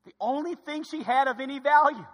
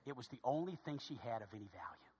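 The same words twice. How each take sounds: First: Higher, projected ONLY THING SHE HAD; emphatic repeat. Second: Low, very soft statement; hushed. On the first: Preacher driving home the widow's only possession, emphatic. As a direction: lift "The only thing" high and drive it through "value". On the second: Preacher telling church about the widow's only possession, hushed. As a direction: drop it low, almost under the breath. Quiet first take, then repeated emphatically. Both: Real, not acted.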